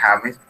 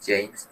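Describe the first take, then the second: First: The name is pronounced the Spanish way. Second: The name is pronounced the English way. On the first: This is how the name is said in Colombia. "en Colombia él no se llama James ... entonces sería James" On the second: This is how the name is said in English. "la pronunciación, pues, en inglés pues es James"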